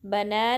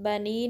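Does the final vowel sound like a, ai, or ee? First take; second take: a; ee. First: It ends in a plain a vowel. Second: It ends in a plain ee vowel. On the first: "बना नहीं" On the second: "बनी नहीं"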